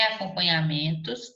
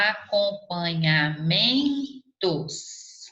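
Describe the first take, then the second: First: Said in the usual way. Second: "acompanhamentos" drawn out slowly, stretching MEN; teacher spelling out the syllables of "acompanhamentos". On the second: Shown as a demonstration. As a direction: break "acompanhamentos" into slow syllables, leaning on MEN. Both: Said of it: "Olha lá".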